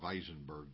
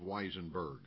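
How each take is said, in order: First: The name begins with a V sound. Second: The name begins with a W sound.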